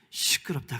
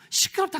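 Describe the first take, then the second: First: Said in the usual way. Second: Mock annoyed neighbor. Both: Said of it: "주변에서".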